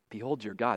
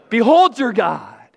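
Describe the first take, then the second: First: It is said weakly and quietly. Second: It is said strongly and loudly.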